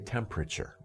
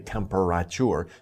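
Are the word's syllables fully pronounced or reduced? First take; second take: reduced; fully. First: The middle syllables are reduced and run together. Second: Every syllable is pronounced separately and fully. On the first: The speaker calls it right. "say temperature" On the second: The speaker calls it wrong. "you can overpronounce the syllables like temperature, but don't say temperature"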